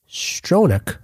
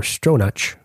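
First: "Stronach" ending in a hard k; "Stronach" with a k sound at the end; guessed pronunciation. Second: "Stronach" ending in a ch as in church; alternative pronunciation. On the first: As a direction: say "Stronach" as STROH-nuk. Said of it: "I'm gonna say". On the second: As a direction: say "Stronach" as STROH-natch. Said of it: "I'm gonna say, or". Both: Shown as a demonstration.

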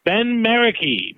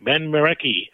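First: Marecki slow and higher, announcing it; drawn-out name. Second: Said in the usual way. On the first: Acted.

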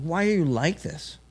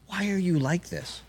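First: A lightly voiced homeless man, pitched a bit up; homeless man's voice. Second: Said in the usual way. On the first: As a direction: echo his question back in his voice. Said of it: "He's like". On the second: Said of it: "I said".

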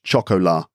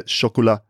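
First: Chocolat spelled out as "shock-oh-LAH"; anglicised chocolat. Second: Chocolat lightly French, short quick ending; French-style chocolat. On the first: Showing the slight difference, anglicised pronunciation. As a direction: chocolat with full English OH in the middle, lower. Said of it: "rather than choco". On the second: Showing Charlie the slight difference, French-style pronunciation. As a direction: chocolat as "shok-o-la", running together. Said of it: "rather than". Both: Shown as a demonstration.

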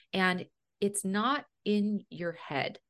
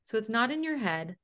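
First: Slow, with a heavy stress on "not" in "it's not in your head"; slow emphatic. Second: "your" lifted and stressed in "it's not in your head". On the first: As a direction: lean on "not", drag it out slowly. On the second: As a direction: hit the word "your". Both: Shown as a demonstration. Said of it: "I need people to understand this".

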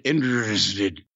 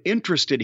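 First: INTERESTED slurred into "in'sted", low and slow. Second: Said in the usual way. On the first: Retold or imitated. Imitating how the boss slurred INTERESTED, slurred and low. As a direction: run INTERESTED together in a low, dragged slur. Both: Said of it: "he, he slurred it".

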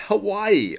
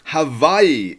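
First: "Hawaii" said with a clear W sound. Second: "Hawaii" said with V for W. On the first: Wife insisting to husband on her pronunciation, "Hawaii" with a W. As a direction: say "Hawaii" with a W, as Ha-WAI-ee. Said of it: "couldn't agree on how to pronounce". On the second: Husband correcting his wife, "Hawaii" with a V. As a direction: say "Hawaii" slowly as Ha-VAI-ee. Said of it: "is how it's pronounced". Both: A narrator's reading.

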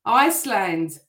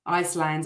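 First: Iceland called out like a Eurovision roll call; Eurovision announcer. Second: Said in the usual way. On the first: Pretend. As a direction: announce Iceland to the audience, a touch grandly. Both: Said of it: "I sound like I'm on Eurovision".

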